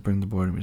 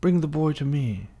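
First: Said in the usual way. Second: High, theatrical evil master; villain's command. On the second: Retold or imitated. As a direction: summon him like a dark lord. Acting Voldemort's command.

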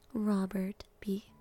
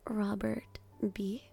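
No difference in how they are said.

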